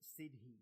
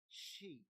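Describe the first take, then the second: First: It is said as two syllables, with a d sound. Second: It is said as one syllable, like 'she'. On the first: The speaker calls it wrong. "you could read it as Sidhi" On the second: The speaker calls it right. "the way it's actually said is she"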